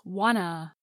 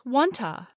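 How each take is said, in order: First: The t sounds are dropped, giving 'wanna'. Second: The second vowel is reduced to a schwa. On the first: "The two t sounds drop off in fast speech, so wanta becomes wanna" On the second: "gets reduced to another vowel sound, schwa"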